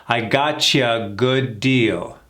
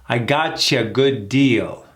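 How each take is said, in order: The two takes are said the same way.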